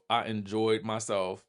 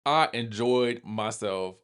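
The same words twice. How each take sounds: First: "I enjoyed myself" repeated much softer; soft echo. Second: Slow, savoring "I enjoyed myself"; slow emphatic. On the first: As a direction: let "I enjoyed myself" fall away softly. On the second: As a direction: lean into "I enjoyed myself" slowly. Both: Real, not acted. Repeats verdict twice.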